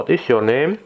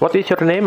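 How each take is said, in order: First: It is spoken at a slow pace. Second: It is spoken at a fast pace. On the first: "alur pertama pelan dulu" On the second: "alur ketiga yang paling cepat"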